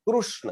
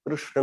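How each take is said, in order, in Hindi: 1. पहला अक्षर 'kroo' की तरह सुनाई देता है। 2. पहला अक्षर 'kri' की तरह सुनाई देता है। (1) "बहुत लोग ऐसा बताते हैं कृष्ण, तो गलत हो गया, क्योंकि क्रू उसने बताया" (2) "ऋषि का रू है... तो वो कृष्ण ऐसा कहेंगे"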